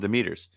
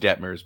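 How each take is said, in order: First: The name is said with three syllables. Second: The name is said with two syllables. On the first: The speaker calls it wrong. "I'm doing it on purpose" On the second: The speaker calls it right. "I know it's Detmers"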